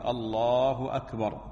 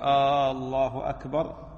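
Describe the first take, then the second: First: Both words are said short with no drawn-out vowel. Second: The opening vowel of Allah is drawn out long. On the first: It means God is greater than everything. The speaker calls it right. "من السنة الحذف وعدم التمطيط في التكبير" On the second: It becomes a disapproving question. The speaker calls it wrong. "فبعضهم يمد ألف الله أو همزة الله فيقول الله أكبر"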